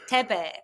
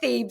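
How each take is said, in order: First: The name is said with a French pronunciation. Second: The name is said as its English spelling reads. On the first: This is the family's original pronunciation. "it's a French name. My grandparents were French, and it's Tebe" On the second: This is the changed, simpler pronunciation. "Let's just say Thebe the way it's written"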